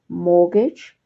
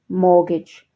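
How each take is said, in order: First: The T in the middle is silent. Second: The T in the middle is silent.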